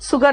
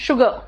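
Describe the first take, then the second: First: The word begins with an s sound. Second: The word begins with an sh sound. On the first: The speaker calls it wrong. "सुगर नहीं होता" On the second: The speaker calls it right. "शुगर होता है"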